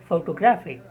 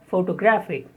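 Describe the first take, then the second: The two takes are said the same way.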